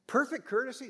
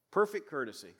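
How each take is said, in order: First: Perfect lifted high, rising on courtesy; stressed perfect. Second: Said in the usual way. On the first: Shown as a demonstration. Preacher stressing the high standard to his congregation, rising. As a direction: hit Perfect up high as a challenge. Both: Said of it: "that's a high standard".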